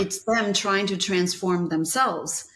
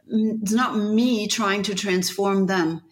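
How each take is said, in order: First: "them" stressed, slow and deliberate. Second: "me" stressed, slow and deliberate. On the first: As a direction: lean into "them". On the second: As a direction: land hard on "me". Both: Real, not acted. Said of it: "contrast me versus them".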